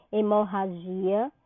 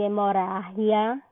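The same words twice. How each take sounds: First: Hemorragia stressed on GI, with Portuguese zh sound. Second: Hemorrágia stressed on RRÁ, with Spanish h-like g. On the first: Teacher showing what not to say, hemorragia stressed on GI. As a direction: say hemorragia as e-mo-ha-ZHI-a. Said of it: "Eu não digo hemorragia". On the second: Teacher showing what to say, hemorrágia stressed on RRÁ. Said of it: "eu digo hemorrágia". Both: Shown as a demonstration.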